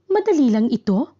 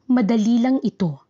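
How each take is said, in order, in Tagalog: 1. Ito ay sinasabi bilang tanong. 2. Ito ay sinasabi bilang simpleng pahayag.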